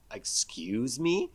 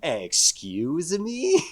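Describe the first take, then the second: First: Offended whisper. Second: Very slow, offended excuse me; drawn-out offended. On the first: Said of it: "And she's like". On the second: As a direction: stretch it out in mock offense. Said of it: "Say that again?". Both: Retold or imitated.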